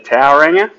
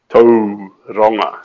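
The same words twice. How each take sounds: First: The name is said with an anglicized pronunciation. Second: The name is said with the Māori pronunciation. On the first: The speaker calls it wrong. "You can say Tauranga" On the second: The speaker calls it right. "but Tauranga sounds better"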